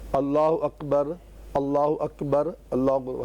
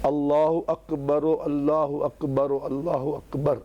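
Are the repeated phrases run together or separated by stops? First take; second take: separated; run together. First: The phrases are separated by stops, without linking sound. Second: The phrases run together, with an 'u' linking sound. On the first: "जब रुकेंगे तो अल्लाह अकबर कहेंगे" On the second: "साथ पढ़ेंगे तो अल्लाह अकबर पेश से पढ़ेंगे"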